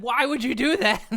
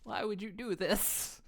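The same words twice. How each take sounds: First: Higher, louder yelled question; higher, louder playful yell; mock shout. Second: Slow, hushed wounded whisper; slow whispered "Why would you do this?". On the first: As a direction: shout "Why would you do that?" in mock outrage. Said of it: "I said". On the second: Pretend. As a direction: breathe the question out slowly. Pelted with paprikas, whispering.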